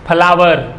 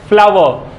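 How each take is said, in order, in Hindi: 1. पहली ध्वनि दोनों होठों से बनती है। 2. पहली ध्वनि में निचला होंठ ऊपर के दांतों से लगता है। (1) "बहुत सारे लोग क्या कहते हैं" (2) "हमारा जो लोअर लिप है वो अपर को टच करेगा"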